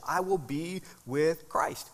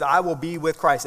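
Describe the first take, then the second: First: "I will be with Christ" drawn out at half speed, softer; slow right down, setting apart "with Christ"; measured, weighty pauses through "be with Christ"; emphasis on relationship. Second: Said in the usual way. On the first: Shown as a demonstration. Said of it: "the emphasis is where? On the relationship". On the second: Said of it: "the emphasis is where?".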